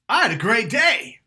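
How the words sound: It sounds loud and excited, with strong push.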